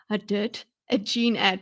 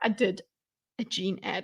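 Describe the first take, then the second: First: It is said in a forceful, angry way. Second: It is said in a calm, flat way. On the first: "It would be so great if she went, ... you don't want her to be too angry" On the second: "She's like"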